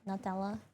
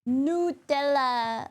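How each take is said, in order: First: The first syllable sounds like the word 'nut'. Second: The first syllable does not sound like 'nut'. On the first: The name comes from the word nut. "I thought it would be Nutella, you know, because like it's a nut" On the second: This is how Americans say it. "I know Americans say Nutella"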